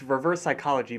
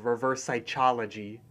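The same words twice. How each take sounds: First: The phrase is pronounced in the ordinary way. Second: The phrase is pronounced with a deliberate mispronunciation. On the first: The speaker calls it right. "It's reverse psychology" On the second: The speaker calls it wrong. "what Muscle Man says is reverse psychology"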